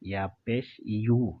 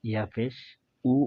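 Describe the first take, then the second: First: The final syllable starts with a 'y' glide. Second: The final syllable is a plain 'u' sound. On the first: The speaker calls it right. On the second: The speaker calls it wrong.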